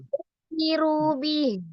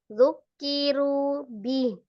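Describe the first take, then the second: First: The words run on without any break. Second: There is a break before the last word. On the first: The speaker calls it right. "tidak boleh pisah" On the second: The speaker calls it wrong. "kalau seolah-olah kayak seolah terpisah"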